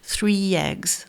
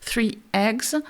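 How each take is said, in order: First: A lengthened y-like sound links the two words. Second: A glottal stop separates the two words. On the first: "une continuité de voisement, ... une sorte de i un peu plus long" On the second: "avec un coup de glotte comme je suis en train de le faire"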